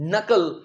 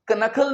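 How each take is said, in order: First: The word starts directly with an n sound. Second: The word starts with a pronounced k sound. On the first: The speaker calls it right. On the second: The speaker calls it wrong.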